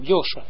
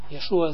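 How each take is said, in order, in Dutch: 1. De naam begint met 'yo' en heeft twee lettergrepen. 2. De naam begint met 'ye' en heeft drie lettergrepen. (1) "Dat is een goede naam, Yosha, zo moet je doen" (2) "ze zeggen dat niet correct"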